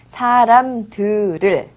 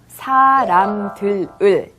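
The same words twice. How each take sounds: First: The final l carries over into the next syllable. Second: Each syllable is said separately, as spelled. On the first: "발음할 때는 사람들을 이라고 발음하는 거죠" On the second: "쓸 때는 이렇게 사람들을이라고 씁니다"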